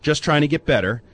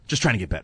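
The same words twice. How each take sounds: First: It is said in a plain, neutral tone. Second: It is said in a rude, dismissive tone.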